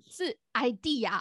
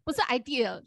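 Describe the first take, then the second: First: "idea" said slowly and carefully as the correct "aɪ-di-a"; right pronunciation. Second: "idea" said as the wrong version she first used; the mistaken "idea"; wrong pronunciation. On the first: Showing her friend the correct "idea", slow and careful. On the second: Showing her friend the wrong "idea" first, the mistaken sound. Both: Shown as a demonstration. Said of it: "idea还是idea？".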